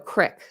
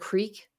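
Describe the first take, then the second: First: The vowel is short, as in 'kick'. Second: The vowel is long, as in 'seek'. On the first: The speaker calls it wrong. "crick instead of creek" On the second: The speaker calls it right. "crick instead of creek"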